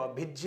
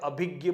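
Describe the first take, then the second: First: The final conjunct is given its careful, pure pronunciation. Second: The final conjunct is given its common everyday pronunciation. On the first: The speaker calls it right. "इसका उच्चारण करना चाहे तो अभिज्य होना चाहिए" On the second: The speaker calls it wrong. "लेकिन हम प्राय अभिज्ञ बोलते हैं"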